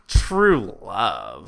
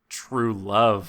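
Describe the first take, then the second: First: It is said with heavy, mocking cynicism. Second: It is said with only slight cynicism.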